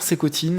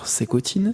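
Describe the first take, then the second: First: It is said in a plain everyday voice. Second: It is said in an exaggerated put-on accent. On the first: The speaker calls it right. "ta voix euh, comme de d'habitude" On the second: The speaker calls it wrong. "cet accent à la con"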